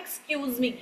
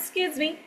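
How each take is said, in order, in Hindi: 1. यह वाक्यांश धीरे और पूरा कहा जाता है। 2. यह वाक्यांश जल्दी और आपस में मिलाकर कहा जाता है। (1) "हम सब तो कहते हैं ना" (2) "no वो कहते हैं"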